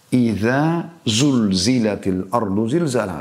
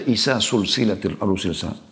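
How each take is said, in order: First: The z-like sounds are kept distinct from s. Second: The z-like sounds are all turned into s. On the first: The speaker calls it right. "Beda iza zal setelah zai zulzila" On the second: The speaker calls it wrong. "Bahkan ada yang membaca"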